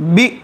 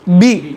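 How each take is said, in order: First: The vowel is cut off with a jerk. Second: The vowel is short, smooth and relaxed. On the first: The speaker calls it wrong. "झटका अगर देंगे तो बी" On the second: The speaker calls it right. "असल क्या है? बी"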